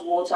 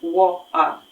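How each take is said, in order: First: Water with the T swallowed into a glottal stop; London working-class water. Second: "water" with a glottal stop, no T; London glottal water. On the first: Teacher demonstrating Cockney water, T dropped. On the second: Teacher repeating the London water for students. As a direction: drop the T: "wa'er". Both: Shown as a demonstration. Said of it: "these people pronounce water as".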